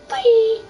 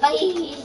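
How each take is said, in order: First: It is said loudly and energetically. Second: It is said weakly, with a strained voice.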